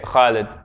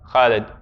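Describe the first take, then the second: The two takes are said the same way.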